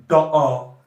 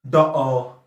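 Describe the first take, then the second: No difference in how they are said.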